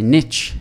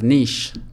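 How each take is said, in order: First: It is said with an American accent. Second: It is said with a South African accent.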